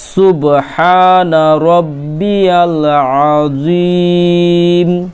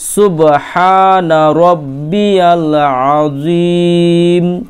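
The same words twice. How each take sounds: The two takes are said the same way.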